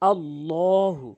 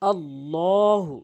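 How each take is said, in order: The two takes are said the same way.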